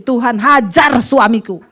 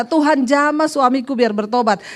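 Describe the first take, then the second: First: "hajar" drawn out and punched; slow prayer line, hit "hajar" hard; stress on hajar. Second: Said in the usual way. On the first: Shown as a demonstration. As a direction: lean heavily on "hajar". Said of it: "Sekarang doanya ganti". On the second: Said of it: "Dulu ibu berdoa gimana".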